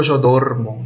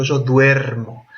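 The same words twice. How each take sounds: First: "dormo" with a plain o, DOR-mo; wrong form. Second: "duermo" with stressed ue, DWER-mo; correct diphthong. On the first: Teacher shows students what nobody says, "dormo" with plain stressed o. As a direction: say "dormo" without any diphthong. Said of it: "Yo no digo yo dormo". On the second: Teacher shows students the real form, "duermo" stressed on DWER. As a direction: glide from u into e on "duermo". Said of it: "yo digo yo duermo". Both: Shown as a demonstration.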